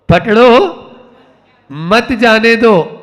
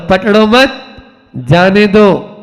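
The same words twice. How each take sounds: First: The pause comes right after 'pakdo'. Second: The pause comes right after 'mat'.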